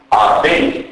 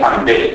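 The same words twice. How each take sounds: First: "Αμπέλ" as abel, pure b; no nasal. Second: "αμπέλ" as ambel, m before b; prenasalised b. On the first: Lecturer showing eastern dialect, "Αμπέλ" with bare b. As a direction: say "Αμπέλ" with no m before the b. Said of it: "έχουμε προφορά μπ". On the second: Lecturer contrasting the usual form, "αμπέλ" with mb. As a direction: sound the m in "αμπέλ". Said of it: "αντί αμπέλ". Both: Shown as a demonstration.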